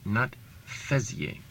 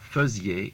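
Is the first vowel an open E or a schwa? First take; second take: open E; schwa. First: The first vowel is an open E sound. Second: The first vowel is a schwa sound. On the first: The speaker calls it wrong. "not an open E sound" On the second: The speaker calls it right. "It's a schwa sound"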